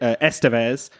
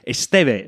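First: The name is said with an English pronunciation. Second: The name is said with a Spanish pronunciation. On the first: The speaker calls it wrong. "I pronounced it Estevez" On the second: The speaker calls it right. "the Spanish pronunciation is Estevez"

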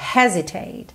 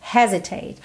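First: The stress is on the first syllable. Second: The same.

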